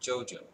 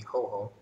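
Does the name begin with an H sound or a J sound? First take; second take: J sound; H sound. First: The name begins with a J sound. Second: The name begins with an H sound.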